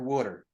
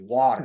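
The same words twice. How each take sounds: First: It is said like 'wooder' with a rounded vowel. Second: It is said with the standard 'water' vowel. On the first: "I say water" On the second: "Water sounds sounds weird to me"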